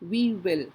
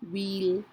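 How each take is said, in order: First: Two separate words are said in full. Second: One merged word with a lengthened vowel.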